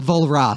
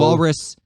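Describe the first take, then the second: First: The name starts with a V and ends in 'ra'. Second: The name starts with a W and ends like 'rus'. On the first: The speaker calls it right. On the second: The speaker calls it wrong.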